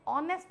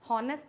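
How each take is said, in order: First: The word starts directly with a vowel. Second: The word starts with an h sound. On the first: The speaker calls it right. "हॉनेस्ट में ऑनेस्ट बोला गया" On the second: The speaker calls it wrong. "हॉनेस्ट नहीं बोला गया"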